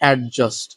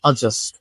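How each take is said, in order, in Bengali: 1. 'd' ধ্বনিটি স্পষ্টভাবে উচ্চারিত হয়েছে। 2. 'd' ধ্বনিটি সম্পূর্ণ বাদ পড়ে। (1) "not adjust" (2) "উচ্চারণটা হচ্ছে আ এবং ডটা স্কিপ থাকবে"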